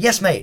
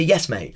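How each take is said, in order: First: Higher-pitched, mock nervous answer; nervous reply. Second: Said in the usual way. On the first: Nervous recruit answering his instructor with "mate", nervous reply. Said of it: "I say mate when I'm nervous".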